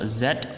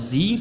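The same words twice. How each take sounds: First: The letter is said the British way. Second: The letter is said the American way. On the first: "versi U K atau Britishnya" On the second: "versi Amerika"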